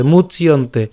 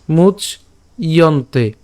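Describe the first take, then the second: First: মুচ ইয়ন্তে run together as one word, no pause; joined মুচইয়ন্তে. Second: মুচ said alone, a pause, then ইয়ন্তে; separated মুচ … ইয়ন্তে; syllable split. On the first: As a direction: join মুচ and ইয়ন্তে smoothly. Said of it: "একসাথে". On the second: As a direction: break মুচ apart from ইয়ন্তে. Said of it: "তাহলে উচ্চারণটা কেমন করব?". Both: Shown as a demonstration.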